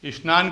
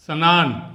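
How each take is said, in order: First: स्नान the usual Hindi way, 'is-naan'; everyday Hindi pronunciation. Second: स्नान with an a between s and n, 'sa-naan'; full 'sa' sound. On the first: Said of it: "हम लोग क्या बोलते हैं हिंदी में". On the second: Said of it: "सा बना के लिखूँगा तो". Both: Shown as a demonstration.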